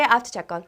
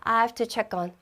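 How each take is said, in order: First: The phrase is said at a fast pace. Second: The phrase is said at a slower pace.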